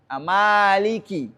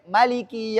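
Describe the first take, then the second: First: The first vowel is held long. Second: The first vowel is kept short. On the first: This is the reading of the Hafs narration. "ini harus dibaca panjang dalam riwayat Hafs an Asim" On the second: This is the reading of another narration. "Tapi dalam riwayat lain ada yang baca pendek"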